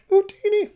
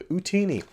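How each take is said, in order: First: Squeaky chipmunk-high Jawa chirp; quick high Jawa yelp. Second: A cracking half-try at the Jawa squeak; strained, only somewhat higher Jawa attempt; failed Jawa voice. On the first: Retold or imitated. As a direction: pitch it way up like a tiny desert scavenger. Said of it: "I was gonna do the Jawa impression". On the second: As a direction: reach for the high Jawa voice but let it break. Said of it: "can't even do an impression 'cause my voice is just cracking up".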